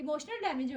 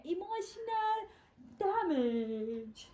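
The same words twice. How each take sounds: First: Said in the usual way. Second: Drawn-out meme delivery. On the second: Pretend. Teasing a friend for crying, comically drawn-out catchphrase.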